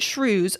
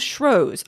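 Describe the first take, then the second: First: The first syllable rhymes with shoes. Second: The first syllable rhymes with shows. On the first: "some people pronounce it Shrews" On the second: "some people use Shrows"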